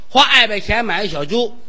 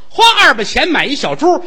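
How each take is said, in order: First: The sounds are distorted, like a lisp. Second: The sounds are articulated cleanly and clearly. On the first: The speaker calls it wrong. "有毛病说得了吗？" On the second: The speaker calls it right. "说相声嘴里得干净"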